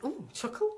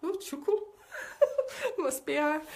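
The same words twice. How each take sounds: First: Mildly mocked questioning echo; a touch of mock surprise; mock put-on voice. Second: High-pitched exaggerated echo; hammed-up, much higher mocking repeat; mock put-on voice. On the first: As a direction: lightly put on, querying the word. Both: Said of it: "I don't talk like that".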